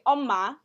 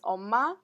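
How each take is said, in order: First: The pitch falls on an unusual spot. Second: The pitch falls where standard speakers put it. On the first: The speaker calls it wrong. "the tone would be at a different spot than you would normally say" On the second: The speaker calls it right. "when you say Korean, like word for mom, it's"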